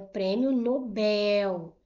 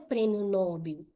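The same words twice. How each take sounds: First: The stress in Nobel is on the last syllable. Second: The stress in Nobel is on the first syllable. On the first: The speaker calls it right. "a sílaba tônica é a última" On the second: The speaker calls it wrong. "Não é prêmio Nobel"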